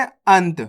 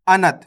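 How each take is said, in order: First: अंत with a quick half "n": ant; one syllable अंत, no vowel after the n. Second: अनत with a full "na": a-nat; न diucapkan penuh. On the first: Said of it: "यहाँ पे तो आधा ना लगे हुआ है". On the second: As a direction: say अनत as two syllables, a-NAT. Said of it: "ना का उच्चारण पूरा हो जाएगा". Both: Shown as a demonstration.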